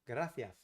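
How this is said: The c is said like th. This is how people from Madrid say it. "the C is more like a th"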